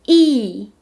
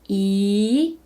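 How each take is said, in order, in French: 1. La hauteur chute brusquement de haut en bas. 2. La hauteur monte du milieu vers le haut.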